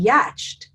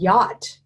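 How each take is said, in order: First: It is said with a ch sound before t. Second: It is said as one syllable ending in t. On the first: The speaker calls it wrong. "It would be yatched, right?" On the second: The speaker calls it right. "who in the world would know that that said yacht?"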